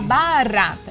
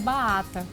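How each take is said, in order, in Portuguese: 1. O R batido está claramente pronunciado. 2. O R batido está faltando. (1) "esse R, ela tem que levantar a ponta da língua e fazer uma vibração" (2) "ela não consegue, vai sair um baata"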